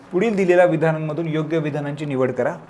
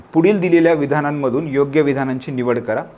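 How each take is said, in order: The two takes are said the same way.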